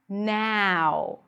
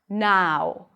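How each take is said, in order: First: The vowel starts like the vowel in cat. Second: The vowel starts with an open ah sound. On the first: "the starting vowel sound sounds more like ... ah as in cat" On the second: "In British English, it's going to be pronounced more with an open ah sound"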